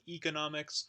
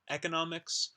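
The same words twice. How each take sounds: First: The first vowel is a tense 'ee' sound. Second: The first vowel is a lax 'eh' sound. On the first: "the high front um, unrounded tense vowel E, so like economics" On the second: "the eh sound, ... eh, economics"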